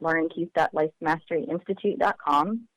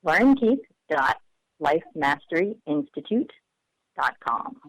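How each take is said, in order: First: It is said fast. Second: It is said slowly.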